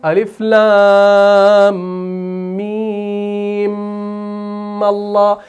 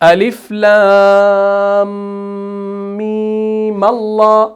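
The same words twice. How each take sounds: First: The last meem is doubled and held with nasal hum. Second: The last meem is short and plain, without nasal hum. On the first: The speaker calls it wrong. "अगर आपने बाद में भी यहां पर भी म कर दिया ना, तो यह गलती है" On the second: The speaker calls it right. "इसको सिंपल आपने मीम अदा करना है।"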